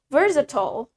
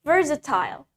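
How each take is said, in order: First: It is said in an American accent. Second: It is said in a British accent. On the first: "di American accent, we say it versatile" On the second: "That's in British accent"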